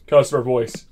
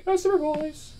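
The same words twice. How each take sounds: First: Said in the usual way. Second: High put-on customer voice. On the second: Shown as a demonstration.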